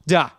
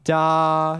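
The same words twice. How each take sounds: First: DA cut short and abrupt; quick, unsustained "da"; short attack. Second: DA held long and full; drawn-out, sweeping "da"; long, sweeping accent. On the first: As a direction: stop "da" right after the attack. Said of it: "it's not da". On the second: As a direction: sustain "da" with a big sweep. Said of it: "It's long. It's big, sweeping". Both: Shown as a demonstration.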